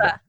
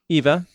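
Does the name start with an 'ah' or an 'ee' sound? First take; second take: ah; ee. First: The name begins with an 'ah' vowel. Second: The name begins with an 'ee' vowel. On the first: The speaker calls it right. "I think she pronounces it Ava" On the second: The speaker calls it wrong. "My fault"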